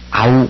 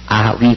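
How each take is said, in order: First: One gliding sound, 'au'. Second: Two separate vowels, 'a' then 'ü'. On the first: The speaker calls it right. "아우 그렇게 읽습니다" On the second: The speaker calls it wrong. "아 위 그렇게 읽지 않고"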